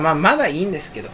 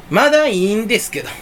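First: Said in the usual way. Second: Lightly mimicked Kansai comedian's intonation; Matsumoto. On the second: Vlogger slipping into a comedian's phrasing, light Kansai imitation. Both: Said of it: "松本さんみたいな言い方".

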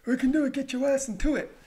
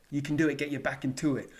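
First: High, loud motivational yell; hyped-up shout. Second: Said in the usual way. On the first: Acted. Vlogger urging viewers through last myths, high hyped shout. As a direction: shout it like a hype man. Same chant repeated in put-on voice.

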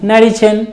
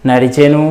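First: నడిచెన్ closed on a bare n, pitched high; నడిచెన్ with no vowel after n; vowelless final n. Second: నడిచెను with a voiced u at the end; full final ను. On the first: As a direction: drop the u, end నడిచెన్ on n. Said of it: "పొల్లులాగానే". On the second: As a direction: say the whole ను in నడిచెను. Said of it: "ను అన్నట్లుగా కూడా ఉండొచ్చు". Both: Shown as a demonstration.

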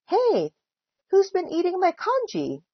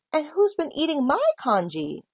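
First: High-pitched hey, then demanding question; storybook indignation, pitch well up; indignant demand. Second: Higher pitch with stress on "my"; me-too indignation on "my"; indignant cry. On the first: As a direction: demand to know the culprit. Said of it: "demanded Mister Chan". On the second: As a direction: cry it, leaning on "my". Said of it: "cried Missus Chan". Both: A narrator's reading.

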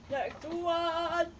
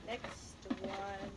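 First: Louder, announcing Next one; called out. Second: Said in the usual way. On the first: Shown as a demonstration. Kid calling the next question to her viewers, announcing loudly. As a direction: sing out Next one like a host.

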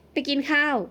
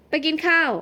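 First: Said in the usual way. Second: Higher-pitched, teasing repeat of ไปกินข้าว; incredulous echo. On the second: A narrator's reading. Gardener doubting that she dressed up just to eat, incredulous. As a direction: echo ไปกินข้าว in disbelief, falling at the end.

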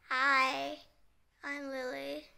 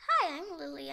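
First: Lightly rude doll introduction; rude mode. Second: Lightly played polite doll greeting; corrected friendly greeting. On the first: Pretend. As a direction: introduce yourself with a touch of rudeness. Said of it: "in a rude mode". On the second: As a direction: redo the introduction more nicely. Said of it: "I mean. Sorry".

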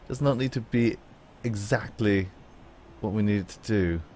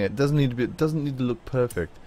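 First: Lightly put-on British accent; a hint of fancy British in the voice. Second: Said in the usual way. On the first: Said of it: "a fancy British accent". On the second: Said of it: "I don't know why I'm talking".

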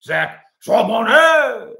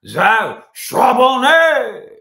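First: Slow, louder, higher hammed-up French; French accent. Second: Very slow, loud, high exaggerated French; French accent. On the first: Host showing off a French accent on a draft name. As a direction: drawl the name like a proud Frenchman. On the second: Host repeating the draft name in an overdone French accent. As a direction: savour every syllable in French. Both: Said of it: "so I can use my French accent".

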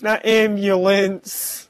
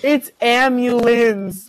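First: "ambulance" slowly with a clear b, AM-byoo-lence; mimicked mispronunciation. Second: "ambulance" drawn out slowly as AM-yoo-linz; corrected pronunciation. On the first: S0 rejecting the friend's version, slow "ambulance" with a b. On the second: S0 correcting the nickname, slow "ambulance" with no b. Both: Shown as a demonstration.

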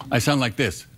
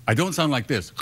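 First: Real snore demo. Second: Wrong snore imitation. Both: Shown as a demonstration.

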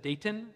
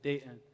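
First: Newcomer's "Dayton" with the T sounded; "Dayton" with a clear T; T pronounced in Dayton. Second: Softer "Dayton" as Day'n, no T; "Dayton" said low and soft, T left out; T dropped in Dayton. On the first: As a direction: say "Dayton" as Day-tun, keeping the T. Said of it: "when I first met her". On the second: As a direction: imitate a local's "Dayton", swallowing the T. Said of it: "they don't pronounce the T". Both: Retold or imitated.

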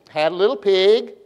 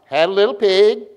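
First: Sing-song poem line rising on "pig"; rising inflection. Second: "pig" pushed up, a bit louder; rising inflection, emphatic. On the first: Preacher teaching children a little poem, rising inflection. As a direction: voice lifts at the end on "pig". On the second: Preacher retrying poem after weak response, emphatic rising inflection. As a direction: lift "pig" firmly for the class to follow. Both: Shown as a demonstration. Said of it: "my voice goes up, y'all go up".

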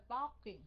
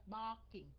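First: BARKING with a tight-lipped first syllable; đọc sai. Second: BARKING with an open-mouthed BAR; há miệng ra. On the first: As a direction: show the mistaken closed BARKING. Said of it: "chứ không phải barking". (đọc sai "barking", miệng khép) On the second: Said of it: "há miệng ra". (đọc "barking" há to miệng) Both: Shown as a demonstration.

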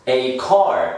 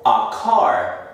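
First: "A" said like the letter name, "ay car". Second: "a" with a short neutral vowel, "uh car". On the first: Teacher showing learners the article, "A" as "ay". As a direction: say "A car" with A rhyming with day. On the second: Teacher showing how other people say it, "a" as "uh". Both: Shown as a demonstration. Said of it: "otras personas también dicen".

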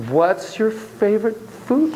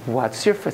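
First: Said in the usual way. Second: A hint of a German accent, low; half-hearted go at a German accent; attempted German accent. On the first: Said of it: "won't even try to do". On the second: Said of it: "try to do a German accent".

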